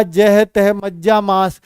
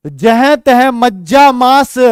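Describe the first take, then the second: First: Said in the usual way. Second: Slow, louder recital of the line; verse recitation. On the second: Shown as a demonstration. (काव्य पाठ की लय में) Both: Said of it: "बेटा जह तह मज्जा मांस".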